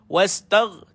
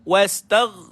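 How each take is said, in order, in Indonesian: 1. Bunyi gh terakhir dipotong pendek. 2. Bunyi gh terakhir dipotong pendek.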